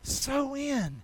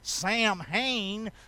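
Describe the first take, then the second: First: The word is pronounced like so-in. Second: The word is not pronounced like so-in. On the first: The speaker calls it right. "But it's pronounced so-in" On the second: The speaker calls it wrong. "that's how I'd say it if I'm from North Carolina"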